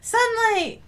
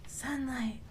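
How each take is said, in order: First: High, eager cry with a falling end; raised, exclaiming voice; calling out. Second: Soft, subdued repeat; hushed, falling murmur; quiet echo. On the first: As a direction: call out to it longingly. Calls out to the outside. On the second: Repeats it softly. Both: Pretend.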